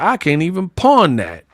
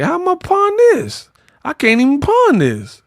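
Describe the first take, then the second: First: Said in the usual way. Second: High-pitched mock disbelief. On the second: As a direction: squeal in hammed-up dismay at a worthless gift. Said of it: "[name] looked at it like".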